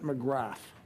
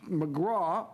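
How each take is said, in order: First: The name ends with a 'th' sound. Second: The name ends without a 'th' sound. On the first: The speaker calls it wrong. "most people would pronounce it McGrath" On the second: The speaker calls it right. "It's McGraw"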